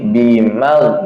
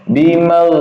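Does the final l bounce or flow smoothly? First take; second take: bounce; flow. First: The final l bounces with an extra release. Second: The final l flows smoothly without bouncing. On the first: The speaker calls it wrong. "yang salah kayak gini" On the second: The speaker calls it right. "harus jalan"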